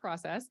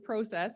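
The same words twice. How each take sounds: First: The word is said with a non-Canadian pronunciation. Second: The word is said with a Canadian pronunciation. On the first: This is how others say it. "not process" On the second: This is how the speaker normally says it. "I have a little bit of an accent. I say process"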